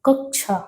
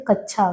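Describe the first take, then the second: First: "कक्षा" with a distinct k before the sha; higher, careful "कक्षा" as kak-sha; correct pronunciation. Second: "कक्षा" said as kachchha, without the k before chha; everyday slurred "कक्षा" as kach-chha; common mispronunciation. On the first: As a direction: sound both consonants in "कक्षा", k then sha. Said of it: "कक्षा शब्द का शुद्धतम उच्चारण क्या है". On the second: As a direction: say "कक्षा" with a doubled ch sound. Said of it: "जब हम लोग बोलते हैं कक्षा गलत है". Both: Shown as a demonstration.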